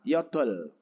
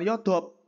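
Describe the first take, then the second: First: The word ends with an L sound. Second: The word ends with a P sound. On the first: The speaker calls it right. "Salah, yodol. Karena konsonan yang depan yang dibaca" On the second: The speaker calls it wrong. "Jangan yodop"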